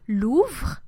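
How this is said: The final E is silent. This is how most regions of France say it. "This letter will also be mute, simply not pronounced in most regions of France"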